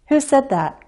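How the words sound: The pitch falls at the end of the question. "Falling intonation the first time I ask the question"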